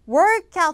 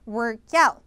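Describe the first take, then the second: First: The stress falls on the first word. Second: The stress falls on the second word. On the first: It is the noun meaning a session of exercise. The speaker calls it wrong. "workout 하면 안 돼요" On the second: It is the verb meaning to exercise. The speaker calls it right. "뒤에 강세죠"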